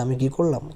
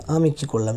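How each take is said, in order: First: Teasing imitation of the husband; mocking repeat. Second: Puzzled innocent question; surprised. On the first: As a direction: mimic his words back with scorn. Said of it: "আবার বলছে". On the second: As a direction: caught off guard, honestly baffled. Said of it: "নীল অবাক হয়ে বলল". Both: A narrator's reading.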